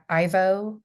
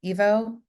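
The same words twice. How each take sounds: First: "Ivo" pronounced EYE-vo; "Ivo" with an eye sound. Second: Questioning "Evo", pronounced EE-vo; "Evo" with an ee sound. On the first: Unsure of the director's name, "Ivo" said EYE-vo. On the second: Checking the director's name, "Evo" said EE-vo. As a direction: say "Evo" starting with a long ee. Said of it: "Evo, yeah". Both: Real, not acted.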